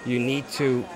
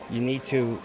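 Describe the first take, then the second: No difference in how they are said.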